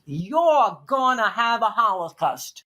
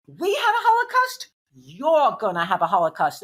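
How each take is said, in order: First: Put-on slow, heavy Brooklyn accent. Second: Sharp Brooklyn retort; Brooklyn accent. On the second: Retold or imitated. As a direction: mimic a Brooklyn social worker. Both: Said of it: "In that Brooklyn accent".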